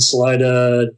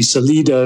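First: The name is said with an English pronunciation. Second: The name is said with a Spanish pronunciation. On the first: This is how locals say the name. The speaker calls it wrong. "it's kind of a funny name" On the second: This is the original Spanish form of the name. The speaker calls it right. "if you're pronouncing it in the proper Spanish"

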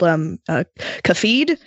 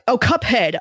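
First: The word is said like 'Cafeed'. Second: The word is said like 'Cuphead'.

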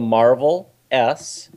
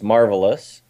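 First: The name is said slowly, as separate parts. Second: The name is said quickly, run together.

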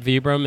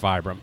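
First: It is pronounced the European way. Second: It is pronounced the American way. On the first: "People in Italy call it, or Europe call it Vibram" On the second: "in the U.S. most people know it as Vibram"

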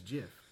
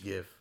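First: It begins with a soft G sound. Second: It begins with a hard G sound. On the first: This is the actual pronunciation. The speaker calls it right. "but it's GIF" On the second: This is how people thought it was said. The speaker calls it wrong. "People thought it was GIF"

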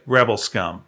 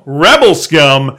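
First: It is said quietly and low. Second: It is said big and loud.

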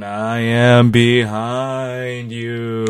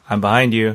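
First: It is said very slowly, drifting near and far. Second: It is said casually at a normal pace. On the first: "You're speaking very slowly, though, almost like a ghost" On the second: "if it was just casual"

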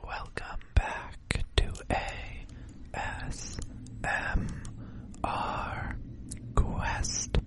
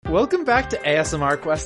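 First: It is said in a soft, special voice. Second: It is said in a normal speaking voice.

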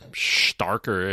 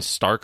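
First: The name is said in a mock German accent. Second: The name is said in plain English.

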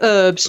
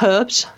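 First: The word begins without an h sound. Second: The word begins with an h sound. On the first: This is how Americans say it. "why do you in the U.S. say herbs" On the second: This is how the speaker's own variety says it. "not herbs"

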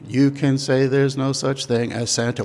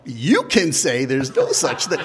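First: It is said on one flat, even note. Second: It is said with punchy, exaggerated emphasis.

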